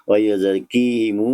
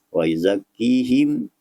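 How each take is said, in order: First: The final m runs on with a long u. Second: The word stops cleanly on the final m. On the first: The reciter joins it to the next word. "jika wasal" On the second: The reciter pauses at this word. "jika waqaf"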